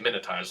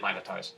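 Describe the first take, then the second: First: It uses an American pronunciation of the word. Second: It uses a British pronunciation of the word. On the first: "Americans say Minotaurs" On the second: "British people say Minotaurs"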